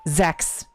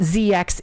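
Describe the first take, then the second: First: The name is said as a single syllable. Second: The name is said as two separate letters. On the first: The speaker calls it right. "it is Zex" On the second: The speaker calls it wrong. "It is not Z X"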